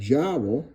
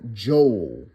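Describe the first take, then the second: First: The word rhymes with bowel. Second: The word rhymes with bowl. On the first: The speaker calls it wrong. "some of y'all might pronounce that jowl" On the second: The speaker calls it right. "like bowl"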